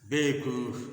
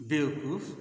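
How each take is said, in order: No difference in how they are said.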